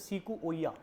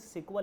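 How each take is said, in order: First: The name is said in four syllables, see-koo-o-ya. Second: The name is said in two syllables, sik-wa. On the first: The speaker calls it right. "इसे बोलते सीकू ओया" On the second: The speaker calls it wrong. "जो यहाँ सिकवा पढ़ा जाता लेकिन सिकवा लिखा नहीं जाता"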